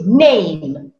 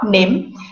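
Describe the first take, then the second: First: The vowel glides toward an ee sound. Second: The vowel is short and plain, with no glide. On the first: The speaker calls it right. "it is name, as if the spelling is N A I M E and there is a hidden sound of I" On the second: The speaker calls it wrong. "That again is wrong or incorrect pronunciation because it is not nim"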